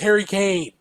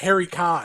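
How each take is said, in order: First: The surname has an 'ay' vowel, like 'cane'. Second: The surname has an 'ah' vowel, like 'con'. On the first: The speaker calls it right. "It was Harry Kane" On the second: The speaker calls it wrong. "his name was not Harry Khan"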